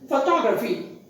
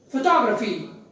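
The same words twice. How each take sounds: First: The second syllable is clearly stressed. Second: The same.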